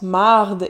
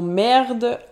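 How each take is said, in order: First: The vowel sounds like an open 'a'. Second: The vowel sounds like an 'e'. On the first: This is the Quebec French way of saying it. "il prononce marde" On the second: This is the standard way of saying it. "et non merde"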